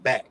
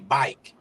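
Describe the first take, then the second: First: The vowel is a short flat 'a' sound. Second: The vowel glides like the vowel in 'eye'. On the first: "instead of back" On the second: "He say bike instead of back"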